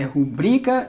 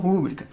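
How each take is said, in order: First: The stress falls on the second-last syllable. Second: The stress falls on the third-last syllable. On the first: The speaker calls it right. "É rubrica" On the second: The speaker calls it wrong. "e não rúbrica"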